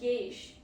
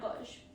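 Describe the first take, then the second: First: The vowel sounds like 'ay'. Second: The vowel sounds like 'aw'. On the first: The speaker calls it right. "A U sounds like A Y" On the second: The speaker calls it wrong. "not A W"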